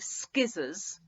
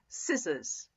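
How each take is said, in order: First: The word begins with an sk sound. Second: The word begins with a plain s sound. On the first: The speaker calls it wrong. "we don't say skizzers" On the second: The speaker calls it right. "We say scissors. ... It's got a silent C"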